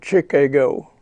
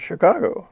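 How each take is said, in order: First: It is said the way a foreigner would. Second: It is said the way a local would. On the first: The speaker calls it wrong. "if a foreigner were to come over here and say" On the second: The speaker calls it right. "instead of going to Chicago"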